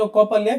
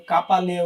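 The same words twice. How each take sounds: First: কপালিয়া with a short o in the first syllable, ko-pa-li-a; the right pronunciation of কপালিয়া; correct name. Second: কাপালিয়া with a long open ka in the first syllable; the wrong reading কাপালিয়া with an open a sound; customers' mispronunciation. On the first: Shown as a demonstration. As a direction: say কপালিয়া the proper way, ko not ka. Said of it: "আমার ডোমেনের নাম ছিল কপালিয়া". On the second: Retold or imitated. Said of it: "কেউ কাপালিয়া উচ্চারণ করত".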